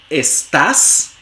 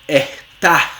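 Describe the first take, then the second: First: The first s is a hissing s. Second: The first s is a breathy h.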